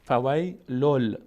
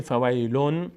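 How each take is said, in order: First: "فویلل" ending in a held L instead of N; slow "فویلل", the N turned into lam; merged lam. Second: "فویلون" ending in a clear N; unmerged tanwin. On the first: Teacher shows the corrected reading, merged lam. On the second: Teacher shows what is no longer said, unmerged N. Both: Shown as a demonstration.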